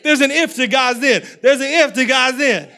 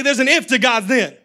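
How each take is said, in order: First: Louder, punched on if; repeated declaration. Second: Call-and-response, loud and laughing; congregation repeating. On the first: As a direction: drive it home twice, loud. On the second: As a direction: lead the crowd to repeat it. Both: Shown as a demonstration. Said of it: "Look at three people. Say".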